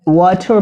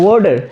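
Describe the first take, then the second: First: It is said with a British accent. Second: It is said with an American accent, t like d. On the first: "British accent के according" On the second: "American accent में ... टी ... वो ड होता है"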